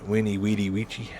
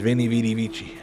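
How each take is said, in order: First: The words begin with a W sound. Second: The words begin with a V sound. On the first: The speaker calls it right. "I think it is" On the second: The speaker calls it wrong. "Everybody says Vinny Weedy Vici. No"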